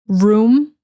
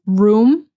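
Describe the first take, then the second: Both takes have the same delivery.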